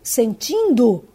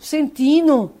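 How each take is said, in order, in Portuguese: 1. O D final é claramente pronunciado. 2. O D final é apagado. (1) "em vez de elas falarem" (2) "elas estão engolindo o D e falam"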